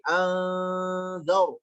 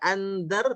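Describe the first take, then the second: First: The n is a held nasal ng sound. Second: The n is pronounced as a clear n. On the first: The speaker calls it right. "tapi andar" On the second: The speaker calls it wrong. "Jangan dibaca andar"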